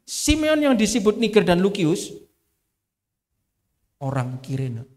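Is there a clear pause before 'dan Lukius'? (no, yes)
no. The names run together as one unbroken unit. All the names refer to one person. "Tapi kalau saya baca begini, ... Ini satu orang"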